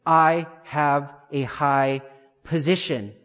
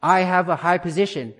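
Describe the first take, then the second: First: Very slow, word-by-word declaration; measured, deliberate affirmation, drawn out; declared with conviction. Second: A firm, ringing affirmation at normal pace; confident declaration. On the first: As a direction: spell out each word slowly and firmly. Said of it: "speak out loud and say". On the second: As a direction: speak it out with conviction, voice lifted. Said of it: "with conviction, with confidence, with clarity". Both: Shown as a demonstration.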